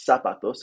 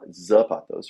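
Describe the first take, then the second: First: The word begins with an S sound. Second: The word begins with a Z sound. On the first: The speaker calls it right. "the Z makes an S sound in Spanish" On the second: The speaker calls it wrong. "and not zapatos"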